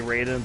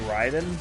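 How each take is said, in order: First: The name is said with an American pronunciation. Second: The name is said with a Japanese pronunciation. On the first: "I think Americans say Raiden" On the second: "Japanese people would say Raiden"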